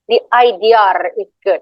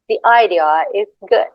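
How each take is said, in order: First: A strong r joins idea and is. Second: A slight r joins idea and is. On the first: The speaker calls it wrong. "it's not the idea is good" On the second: The speaker calls it right. "it's like slightly off"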